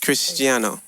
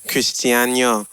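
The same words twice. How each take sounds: First: The N is said as a plain n. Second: The N is said like a Spanish ñ. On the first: This is how the name is really said. "just Cristiano" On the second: This imitates how someone else says the name. "she says my name with the squiggly N"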